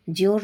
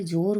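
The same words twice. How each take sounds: First: जोर said "jyor", with a y glide; wrong pronunciation. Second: Said in the usual way. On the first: Shown as a demonstration. Teacher rejecting a mistake, जोर said "jyor". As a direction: slip a y into जोर. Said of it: "नहीं होता है". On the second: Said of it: "होता है".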